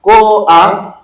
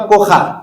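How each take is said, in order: First: "Koach" drawn out slowly, a before the raspy ch; correct furtive patah. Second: "Kocha" with the guttural ch before the final a; wrong pronunciation. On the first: Teacher corrects the misreading, correct "Koach" with a before ch. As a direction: stretch "Koach" and end on the guttural ch. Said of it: "tu dis". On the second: Teacher shows students the misreading, wrong pronunciation "Kocha". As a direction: say "Kocha", ending on an open a. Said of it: "Tu ne dis pas". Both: Shown as a demonstration.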